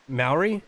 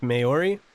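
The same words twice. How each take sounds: First: "Maori" as two beats, MOW-ree, questioning; Maori said right. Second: "Maori" as three beats, may-OR-ee, questioning; Maori said wrong. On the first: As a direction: say "Maori" with MOW rhyming with cow. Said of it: "right the second way". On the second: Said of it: "a little bit wrong". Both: Shown as a demonstration.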